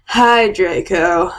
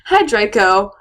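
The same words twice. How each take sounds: First: The greeting is said in a low, depressed voice. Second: The greeting is said in a bright, cheerful voice. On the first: The speaker calls it right. "I said in a depressed voice" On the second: The speaker calls it wrong. "Wait, sorry. I love how there's an exclamation mark"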